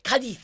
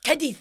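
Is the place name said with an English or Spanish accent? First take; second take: Spanish; Spanish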